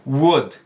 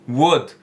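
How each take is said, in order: No difference in how they are said.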